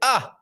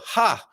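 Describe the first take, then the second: First: The word begins directly with the vowel. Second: The word begins with an audible H sound. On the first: The speaker calls it right. "or do I just say ah" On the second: The speaker calls it wrong. "Do I not say that"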